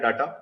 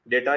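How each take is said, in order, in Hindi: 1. पहला स्वर 'ah' जैसे father में सुनाई देता है। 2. पहला स्वर 'ay' जैसे day में सुनाई देता है। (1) "कुछ जगह इसको डाटा भी पढ़ा जाता है" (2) "इसको कहते हैं डेटा"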